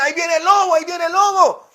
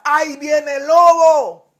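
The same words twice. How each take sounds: First: Put-on boy crying wolf. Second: Slow, frightened shout of the wolf's arrival; terrified boy's cry for help; scared shout. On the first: Boy's prank cry again. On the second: Acted. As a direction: yell for help, truly scared this time. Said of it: "el niño asustado entra ... y grita".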